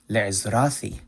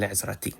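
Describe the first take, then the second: First: Le'ezrathi with th as in thin; le'ezrathi, th where modern Hebrew has t; T pronounced TH. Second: Le'ezrati with a hard t before the final i; le'ezrati, t where the th would be; plain T. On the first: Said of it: "it's pronounced as a T H". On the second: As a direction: say le'ezrati with an English t. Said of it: "instead of". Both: Shown as a demonstration.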